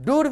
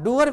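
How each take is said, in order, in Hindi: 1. r से पहले एक अकेला लंबा oo स्वर। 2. लंबा oo स्वर, उसके बाद एक और er स्वर। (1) "भी नहीं होगा" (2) "भी नहीं होगा"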